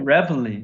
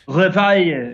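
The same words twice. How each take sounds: First: It is said with an American English pronunciation. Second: It is said with a French pronunciation. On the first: "that's the American English pronunciation" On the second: "they have their own way of saying it"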